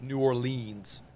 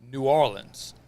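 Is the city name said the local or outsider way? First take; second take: outsider; local. First: The city name is said an outsider's way. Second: The city name is said the local way. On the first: The speaker calls it wrong. "not New Orleans" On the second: The speaker calls it right. "I said it the way it's supposed to be said"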